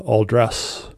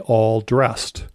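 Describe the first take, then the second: First: The words run together with no final D. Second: The two words end with a clear D sound.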